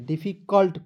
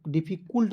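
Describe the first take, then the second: First: Said in the usual way. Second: "डिफिकल्ट" with its last syllable said as kool; wrong pronunciation. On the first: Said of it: "यू को silent ही करना है". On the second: Shown as a demonstration. Teacher warns against the misreading, mispronounced "डिफिकल्ट" with oo in the ending. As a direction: say "डिफिकल्ट" ending in kult with an oo vowel. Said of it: "नहीं पढ़िएगा".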